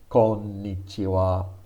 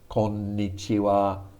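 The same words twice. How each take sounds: First: The n sound is held for a full beat. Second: The n sound is held for a full beat.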